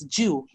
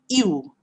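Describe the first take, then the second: First: It begins with a 'j' sound, like 'jew'. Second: It begins with a 'y' sound, like 'you'. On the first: The speaker calls it wrong. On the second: The speaker calls it right. "but it should be pronounced as U"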